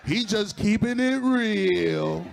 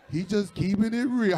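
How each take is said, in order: First: Drawn out slowly through a laugh; slow amused drawl of keeping it real; slow laughing take. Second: Said in the usual way. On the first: Shown as a demonstration. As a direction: stretch keeping it real out, chuckling.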